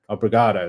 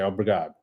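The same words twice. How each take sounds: First: The final vowel is clearly pronounced. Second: The final vowel is dropped or barely heard. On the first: The speaker calls it wrong. "They don't say obrigado" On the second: The speaker calls it right. "They say obrigado. ... They don't say anything on the end"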